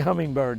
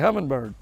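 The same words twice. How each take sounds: First: The word is said in a plain, standard accent. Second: The word is said in a Southern drawl. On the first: This is not how people there say it. "they don't say hummingbird" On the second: This is how people there say it. "In Alabama, they say hummingbird"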